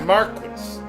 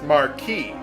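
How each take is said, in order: First: The word is pronounced a non-French way. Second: The word is pronounced the French way. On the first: The speaker calls it wrong. "not Marquis" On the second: The speaker calls it right. "it's pronounced Marquis"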